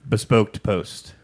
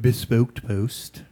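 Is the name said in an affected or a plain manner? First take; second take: plain; affected. First: The name is said in a plain, natural manner. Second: The name is said in an affected, put-on manner.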